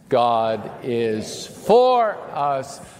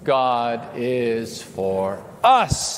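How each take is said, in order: First: The stress falls on the word 'for'. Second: The stress falls on the word 'us'. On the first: "emphasize a different word each time" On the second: "emphasize a different word each time"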